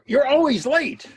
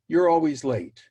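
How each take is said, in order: First: It is said forcefully with high energy. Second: It is said calmly with low energy. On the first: The person is impatient to get to the bottom line. "they are expressing it with that much energy" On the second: There is time to explore what is really going on. "in the first case, I can take my time"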